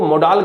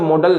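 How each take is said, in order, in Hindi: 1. यह 'mo-dal' जैसा सुनाई देता है, दूसरे स्वर के साथ पूरा उच्चारण। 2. यह 'model' जैसा सुनाई देता है, दूसरे स्वर का उच्चारण हल्का। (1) "ये इनको मोडाल कहते हैं" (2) "मॉडल नहीं कहते"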